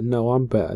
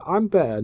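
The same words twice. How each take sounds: First: Said in the usual way. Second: Put-on a high, childish "I'm better"; mock squeaky boast. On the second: Rey mocking Snoke in a squeaky brag. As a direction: squeak it like a kid bragging. Mocked back and forth.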